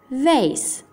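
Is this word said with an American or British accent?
American. It is said with an American English accent. "inglese americano"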